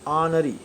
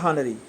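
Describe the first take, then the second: First: The word starts with a vowel, no h sound. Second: The word starts with a clear h sound. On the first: The speaker calls it right. "Correct pronunciation" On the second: The speaker calls it wrong. "Not"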